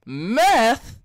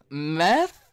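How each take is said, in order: First: A bigger "Meth?", much higher and louder, falling; full hammed-up rapper shout of "Meth?"; [name] voice. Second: Put-on a first, lighter [name]-style "Meth?" with a rising tune; warm-up take of the [name] "Meth?", louder; mock rapper "Meth?" rising up. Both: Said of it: "[name] voice".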